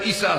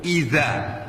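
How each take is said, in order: First: The middle consonant is a hissing 's' sound. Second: The middle consonant is a voiced 'dh' sound. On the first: It has no meaning. The speaker calls it wrong. "sudah salah diganti dengan sin" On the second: It means when. The speaker calls it right. "pakai zal"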